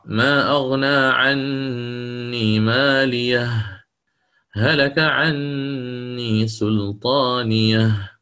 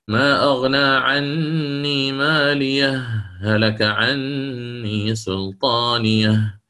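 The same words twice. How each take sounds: First: A full stop with a breath follows the first phrase. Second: A brief break without a breath follows the first phrase. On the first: "فنقف على الهاء الأولى فنأتي بالقطع" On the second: "أن أتي بالسكت"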